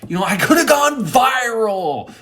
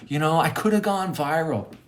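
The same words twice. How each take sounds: First: High, loud mock wail; frustrated outburst. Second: Raised pitch, ordinary volume; restrained lament over missed fame; toned-down frustration. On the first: Storyteller lamenting lost viral fame, loud and frustrated. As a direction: cry out over missed fame. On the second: Retold or imitated. Storyteller repeating his lament, frustrated but calmer.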